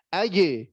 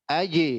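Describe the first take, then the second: Both takes have the same delivery.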